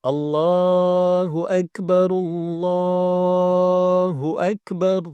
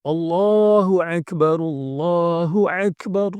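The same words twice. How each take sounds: First: Akbar opened with a clean glottal hamzah, chanted slowly and higher; slow adhan chant with a light clear hamzah on Akbar; correct hamzah. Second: Chanted Akbar with the a in Akbar pressed from the throat like ain; slow, higher adhan chant with a guttural ain on Akbar; hamzah read as ain. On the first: Teacher shows the correct takbir, slow higher chant. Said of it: "Yang benar adalah pakai hamzah". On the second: Teacher shows the wrong reading of Akbar, slow higher chant. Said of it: "Jadi pakai ain, keliru". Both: Shown as a demonstration.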